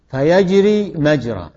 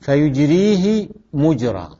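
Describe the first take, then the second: First: فيجري مجرى with a vowels, fayajrī majrā, slow and clear; pronunciation contrast. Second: فيجريه مجرى with u vowels, fuyujrīhi mujrā, slow and clear; pronunciation contrast. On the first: Teacher showing students the form-one reading, slow and careful. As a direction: say فيجري مجرى as yajrī majrā, fatha on ya and mim. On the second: Teacher showing students the form-four reading, slow and careful. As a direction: say فيجريه مجرى as yujrīhi mujrā, damma on ya and mim. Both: Shown as a demonstration. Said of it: "شو الفرق بين الكلام هذا؟".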